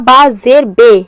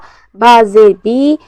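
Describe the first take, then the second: First: The final vowel is an 'ay' sound. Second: The final vowel is a long 'ee' sound. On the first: The speaker calls it wrong. "ये हमारा मजहूल है।" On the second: The speaker calls it right. "ये मारूफ है।"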